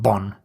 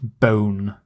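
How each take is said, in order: First: The word rhymes with 'one'. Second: The word rhymes with 'own'. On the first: The speaker calls it wrong. "It doesn't rhyme with one, so it's not bon" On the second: The speaker calls it right. "It rhymes with own. it's bone"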